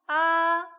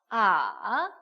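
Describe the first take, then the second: First: The pitch stays high and level. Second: The pitch dips low and then rises. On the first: "일" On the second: "삼"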